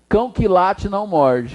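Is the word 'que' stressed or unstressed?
unstressed. The word que is weak and unstressed. The speaker calls it right. "Ficou bom, não ficou?"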